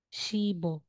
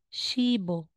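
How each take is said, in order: First: The consonant links to the vowel as b. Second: The same.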